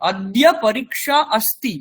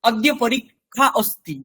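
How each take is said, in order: First: The cluster is said as 'k' plus 'sh'. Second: The cluster is said like a Bengali 'kh'. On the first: The speaker calls it right. "এটাই বলতে হবে" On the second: The speaker calls it wrong. "এটা বলবেন না"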